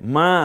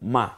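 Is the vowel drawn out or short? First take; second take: drawn out; short. First: The vowel is drawn out long. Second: The vowel is said short and quick. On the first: The speaker calls it wrong. "বলতে হবে মা না" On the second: The speaker calls it right. "বরং বলবেন মা"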